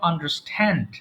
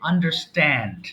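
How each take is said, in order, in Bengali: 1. s-এর পরে t aspirated. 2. s-এর পরে t আনঅ্যাসপিরেটেড। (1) "not" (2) "S এর পরে যদি টি আসে তাহলে আমরা সেটাকে আর টি বলতে পারি না"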